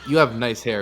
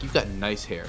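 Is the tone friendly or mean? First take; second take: friendly; mean. First: It is said in a friendly, sincere tone. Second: It is said in a mean, mocking tone.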